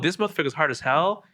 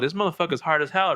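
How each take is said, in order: First: It is said in a suggestive, insinuating tone. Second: It is said in a tough, admiring tone. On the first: The man is sexually aroused. "and be expressing he has an erection" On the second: The man is tough and dangerous. "you can be expressing that he, you know, he's gangster"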